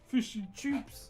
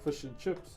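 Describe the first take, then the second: First: The last word is said with an 'oo' vowel. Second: The last word is said with an 'ih' vowel. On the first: The speaker calls it wrong. "do you say chips or choops?" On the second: The speaker calls it right. "do you say chips or choops?"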